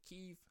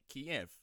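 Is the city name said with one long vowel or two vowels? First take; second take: one vowel; two vowels. First: The name has one long drawn-out E sound. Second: The name has two separate vowel sounds. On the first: This is the Ukrainian form of the name. "the Ukrainian people call it Kyiv ... almost like it's just one elongated E" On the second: This is the Russian form of the name. "apparently that is the Russian pronunciation"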